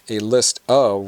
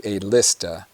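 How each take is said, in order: First: The word 'of' is pronounced in full. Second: The word 'of' is reduced to a schwa. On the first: "Instead of saying a list of" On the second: "we say a lista"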